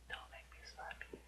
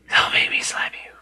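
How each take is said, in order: First: It is said in a normal voice. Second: It is said in a gravelly Batman voice.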